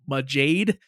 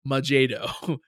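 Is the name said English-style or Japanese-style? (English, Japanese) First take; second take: English; Japanese. First: The name ends like the English word jade. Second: The name ends with an added Japanese-style vowel. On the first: "the proper English pronunciation" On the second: "we're going to hear in the show Majedo"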